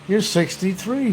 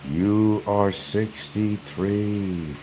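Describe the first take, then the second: First: It is said at a normal speed. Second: It is said very slowly.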